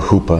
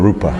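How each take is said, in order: First: The word starts with an H-like sound. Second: The word starts with an R sound. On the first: The speaker calls it wrong. "you can go hupa if you want to, but it's not the same" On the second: The speaker calls it right. "As long as you do an R"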